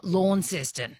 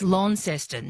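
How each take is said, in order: First: "Launceston" said "LAWN-ses-ton"; "Launceston" with the drawn-out AW vowel; mispronounced Launceston. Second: "Launceston" said "LON-ses-ton"; "Launceston" with the short first vowel; local pronunciation. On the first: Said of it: "not Launceston". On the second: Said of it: "It's Launceston". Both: Shown as a demonstration.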